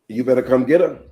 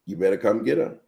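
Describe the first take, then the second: First: Loud, firm telling-off; exasperated demand. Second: Said in the usual way. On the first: Retold or imitated. Mother ordering Kia to fetch her daughter, loud and fed up. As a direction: insist someone come take the child. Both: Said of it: "that's the nonsense she said to me".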